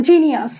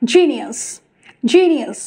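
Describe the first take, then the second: First: "জিনিয়াস" with a plain Bengali j; old wrong genius. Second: "জিনিয়াস" with a careful English j; correct genius. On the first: Teacher shows former habit, plain "জিনিয়াস". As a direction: say "জিনিয়াস" with an unforced first sound. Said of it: "আমরা বলতাম". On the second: Teacher models the correction, careful "জিনিয়াস". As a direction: press the first sound of "জিনিয়াস". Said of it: "correctly আমরা এখন থেকে বলবো". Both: Shown as a demonstration.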